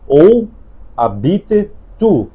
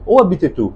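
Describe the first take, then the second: First: It is said at a normal pace. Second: It is said fast.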